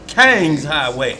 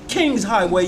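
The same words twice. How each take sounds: First: The first word sounds like 'kang', Southern style. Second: The first word sounds like 'king', Northern style. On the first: The speaker is from the South. "Because I came from Mississippi" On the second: It is the more proper northern way. "if you're talking a little bit more proper up north"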